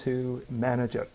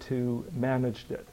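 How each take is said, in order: Both takes have the same delivery.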